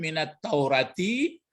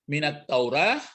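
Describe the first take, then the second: First: The word ends with the full 'ati' ending. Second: The word ends short, with a clipped 'ah'. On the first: "dibaca ini kan minat Taurati" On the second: "diulang-ulang tapi dipendekkan"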